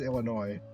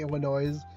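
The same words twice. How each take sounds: First: The final S is silent. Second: The final S is sounded. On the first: The speaker calls it right. "but it is Illinois" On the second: The speaker calls it wrong. "it's the funny version of the pronunciation"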